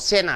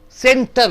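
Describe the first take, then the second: First: The T after the N is dropped. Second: The T after the N is clearly pronounced. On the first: The speaker calls it right. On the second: The speaker calls it wrong.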